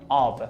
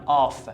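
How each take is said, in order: First: The word ends with a v sound. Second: The word ends with an f sound. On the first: The speaker calls it right. "میگم آو" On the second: The speaker calls it wrong. "نمیخونم آف"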